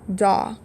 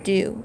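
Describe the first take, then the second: First: The vowel sounds like aw in saw. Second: The vowel sounds like oo in too. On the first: The speaker calls it wrong. "we would think this would say daw" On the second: The speaker calls it right. "but it actually says do"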